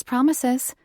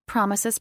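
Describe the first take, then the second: First: Promises lifted higher and louder; teasing lilt. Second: Said in the usual way. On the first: A narrator's reading. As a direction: sing promises up high, teasing. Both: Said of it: "I murmured".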